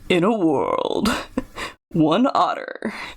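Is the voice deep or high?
high. The voice is pitched fairly high. The speaker calls it wrong.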